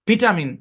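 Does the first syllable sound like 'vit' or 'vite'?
vit. The first syllable has a short 'i' sound. "এই শব্দটা ব্রিটিশে উচ্চারণ করা হয় ভিটামিন"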